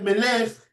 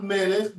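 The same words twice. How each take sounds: First: "מלך" stressed on the last syllable, me-LECH; French-style final stress. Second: "מלך" stressed on the first syllable, ME-lech; stress before the end. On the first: Teacher mimicking the French, "מלך" with final stress. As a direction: push the stress to the end of "מלך". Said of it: "they always put the accent at the end". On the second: Teacher contrasting with French speakers, "מלך" with early stress. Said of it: "not מלך". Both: Shown as a demonstration.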